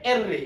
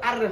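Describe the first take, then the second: First: The name begins with an 'eh' vowel. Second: The name begins with an open 'ah' vowel. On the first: The speaker calls it right. "এটার উচ্চারণটা হবে এর রে" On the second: The speaker calls it wrong. "কিন্তু আর রে হবে না"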